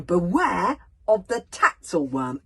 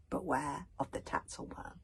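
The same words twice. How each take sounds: First: Loud, slow, higher voiced warning read out; a bodyguard spelling out a warning sign, then exasperated; Bodkin reading aloud. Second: Said in the usual way. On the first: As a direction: read the sign out with mounting alarm. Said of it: "he reads the signal out for them".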